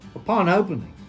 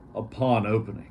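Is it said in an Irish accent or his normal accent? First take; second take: Irish accent; normal accent. First: It is said in an Irish accent. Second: It is said in his normal accent.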